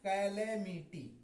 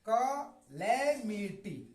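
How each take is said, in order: First: The first vowel sounds like 'cat'. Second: The first vowel sounds like 'cut'. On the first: The speaker calls it wrong. "कैलेमिटी गलत उच्चारण है" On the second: The speaker calls it right. "कलेमिटी इसको पढ़ेंगे"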